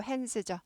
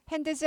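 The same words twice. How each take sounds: First: "hands죠" with the D swallowed, like 핸스죠; nearly silent D in "hands죠"; D barely heard. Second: "hands" with an added 드 syllable, like 핸드스; over-pronounced D in "hands"; D fully sounded. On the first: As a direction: say "hands죠" with hardly any D. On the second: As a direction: say "hands" wrongly, the D fully voiced. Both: Shown as a demonstration. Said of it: "드가 묵음은 아닌데 잘 안 들려요".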